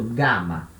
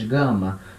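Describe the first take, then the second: First: The first vowel is open and oral. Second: The first vowel is nasal. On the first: The speaker calls it right. "sempre aberto" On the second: The speaker calls it wrong. "como a gente faz em português"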